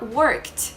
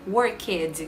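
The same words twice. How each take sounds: First: The ending is pronounced as a short 't' sound. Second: The ending is pronounced as a separate 'id' syllable. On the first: The speaker calls it right. "A gente fala worked, com som de T" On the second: The speaker calls it wrong. "a gente não fala worked, worked, com esse som de E e D"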